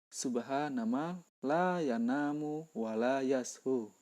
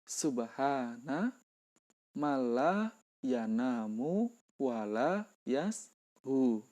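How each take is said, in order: First: The phrase is recited at a normal pace. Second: The phrase is recited slowly and carefully.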